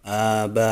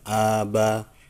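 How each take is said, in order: First: The vowels are kept short. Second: The vowels are drawn out long. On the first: The speaker calls it right. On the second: The speaker calls it wrong.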